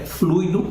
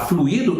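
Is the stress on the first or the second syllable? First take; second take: first; second. First: The stress is on the first syllable. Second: The stress is on the second syllable. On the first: The speaker calls it right. "o termo correto que Allan Kardec usa e que é a tradução escorreita é fluido mesmo" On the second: The speaker calls it wrong. "Mas se você me falar fluido, eu vou entender"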